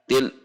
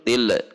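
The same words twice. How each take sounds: First: The L is cut off sharply from what follows. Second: The L ends with a bounce. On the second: "yang memantul"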